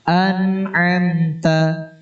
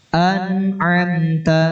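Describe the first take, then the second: Both takes have the same delivery.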